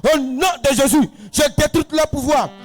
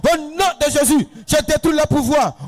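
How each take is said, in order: The two takes are said the same way.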